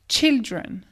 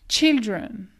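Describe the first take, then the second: The two takes are said the same way.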